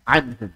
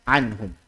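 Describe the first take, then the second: Both takes have the same delivery.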